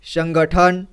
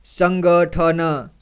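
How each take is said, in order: First: Said in the usual way. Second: संगठन pulled apart very slowly, syllable by syllable. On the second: Shown as a demonstration. Teacher demonstrating slow sounding-out for children, very slow and deliberate. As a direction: read संगठन piece by piece. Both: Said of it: "एक एक जोड़ करके इसी तरह से पढ़ना है".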